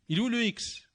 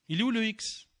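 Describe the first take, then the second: No difference in how they are said.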